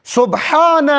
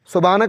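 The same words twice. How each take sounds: First: "سبحان" stretched and higher, with a strong throaty h; correct Arabic pronunciation. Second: "سبحان" with a weak, plain h; wrong pronunciation. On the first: Shown as a demonstration. Preacher corrects worshippers' dhikr, careful pronunciation. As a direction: sound out "سبحان" fully, long second syllable. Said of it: "درست تلفظ". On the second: Retold or imitated. Preacher quotes worshippers' mistake, mispronounced. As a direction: say "سبحان" casually, without the throaty h. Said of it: "سبحان کہاں ہے".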